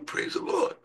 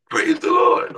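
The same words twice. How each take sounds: First: Soft, breathy, voiceless praise the Lord; hushed congregational praise the Lord. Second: Loud, high joyful shout of praise; preacher's shouted praise the Lord. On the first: Retold or imitated. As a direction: whisper it back like the congregation. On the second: Acted. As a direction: shout it to the rafters.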